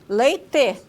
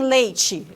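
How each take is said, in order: First: The final syllable is a plain 'te' sound. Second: The final syllable is an affricate 'chi' sound. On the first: This is the southern regional pronunciation. "eles dizem leite" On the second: This is the northern regional pronunciation. "lá eles não dizem leite"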